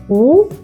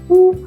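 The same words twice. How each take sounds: First: The pitch rises like a question. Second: The pitch stays high and level. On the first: "Second tone 二声" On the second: "First tone 一声"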